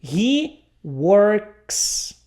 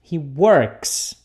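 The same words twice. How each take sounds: First: He works, with a clear S sound at the end of works; model pronunciation. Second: He works again, with the S at the end of works clear; repeated model. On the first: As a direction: say works ending in a hissed S. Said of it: "Então, por exemplo". (pronúncia modelo de "works" com som de S no final) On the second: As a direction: repeat works with its final S sound. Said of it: "um som de S". (repetição modelo de "works" com S final) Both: Shown as a demonstration.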